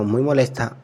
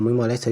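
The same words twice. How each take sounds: First: Said in the usual way. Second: Molesta said as molesto, ending in o; corrected to masculine. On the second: A narrator's reading. Narrator correcting the man's gender, saying molesto. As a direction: swap the final a of molesta for an o. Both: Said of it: "mejor dicho".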